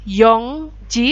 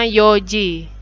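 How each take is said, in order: First: An n sound comes before ji. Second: No n sound comes before ji. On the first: The speaker calls it wrong. "bukan yongji" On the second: The speaker calls it right. "n-nya hilang. Jadinya yoji"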